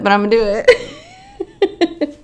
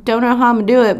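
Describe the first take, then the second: First: High, laughing and determined; determined squeal. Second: Said in the usual way. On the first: Real, not acted. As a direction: vow it with a giddy squeal.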